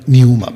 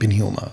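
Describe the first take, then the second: First: The word starts without a p sound. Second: The word starts with a p sound. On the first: "पी बोल रहा है लेकिन silent में है ना" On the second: "ये पिन्यूमा ही है और मैं पिन्यूमा ही बुलाऊंगा"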